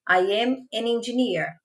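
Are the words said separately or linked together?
linked. The words run together without breaks.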